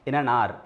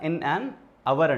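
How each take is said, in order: First: 'Hour' is said as one syllable, 'aar'. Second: 'Hour' is said as two syllables, 'avar'. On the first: "కొంతమంది pronunciation ఆర్ అని చదువుతారు" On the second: "లేదా in an అవర్ అంటారు"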